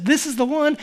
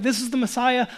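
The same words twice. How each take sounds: First: Loud, high proclamation; emphatic. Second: Loud, higher declaration of the Messiah; emphatic. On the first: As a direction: declare it with total certainty. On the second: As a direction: announce him with certainty. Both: Retold or imitated. Preacher voicing John the Baptist, emphatic and loud. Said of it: "He's emphatic".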